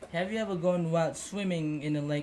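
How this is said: The tune stays flat like a statement.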